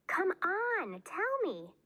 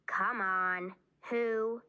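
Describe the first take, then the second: First: High-pitched, insistent wheedle; insistent pleading. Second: Mildly insistent prodding at usual pitch; pressing. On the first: Bean keeps pressing red-faced Ivy to tell, high and insistent. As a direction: beg for the secret, pitched way up. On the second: Bean presses Ivy for a name, mildly insistent. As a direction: coax for an answer, firmly but evenly. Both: A narrator's reading.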